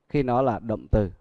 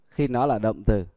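Both takes have the same delivery.

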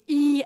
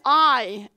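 First: The letter is said like 'ee', as in creep. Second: The letter is said like 'eye', as in tie. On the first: "the Dutch people, like the Polish, say E as in creep" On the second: "The English, of course, pronounce it as I, as in tie"

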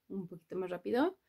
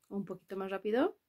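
Both takes have the same delivery.

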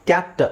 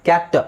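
Both takes have the same delivery.

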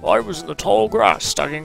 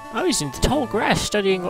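First: It is read in a put-on British accent. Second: It is read in the speaker's ordinary accent.

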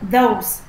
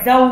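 First: The first sound is made with the tongue out. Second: The first sound is made without the tongue out. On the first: The speaker calls it right. "mà là those" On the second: The speaker calls it wrong. "không phải those"

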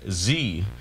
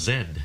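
First: The letter is said the American way. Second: The letter is said the Canadian way. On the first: "Americans pronounce the 26th letter of the alphabet Z" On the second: "here in Canada and the United Kingdom it's pronounced Z"

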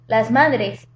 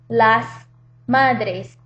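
First: The phrase is said quickly. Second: The phrase is said slowly.

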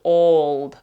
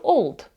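First: The vowel is drawn out long. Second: The vowel is kept short. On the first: The speaker calls it wrong. "Я не кажу" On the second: The speaker calls it right. "я кажу"

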